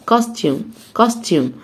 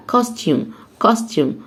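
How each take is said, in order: Both takes have the same delivery.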